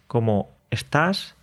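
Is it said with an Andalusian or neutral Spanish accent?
neutral. It is said in neutral Spanish.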